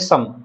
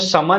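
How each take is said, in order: First: The word ends on a bare consonant. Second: The word ends with a full vowel sound. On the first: The speaker calls it right. "आप इसको बोलेंगे सम" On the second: The speaker calls it wrong. "आप इसको समा नहीं बोलेंगे"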